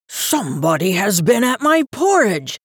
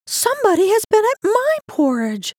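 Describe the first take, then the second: First: Gruff, booming bear voice at usual pitch; great gruff big bear. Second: Very high, birdlike mama bear voice; chirping medium-sized bear. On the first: Big bear finding his porridge touched, gruff. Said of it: "great gruff voice of the big bear". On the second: Medium-sized bear finding her porridge touched, chirping high. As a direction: chirp it like a little bird. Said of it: "sounded like a little chirping bird". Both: A narrator's reading.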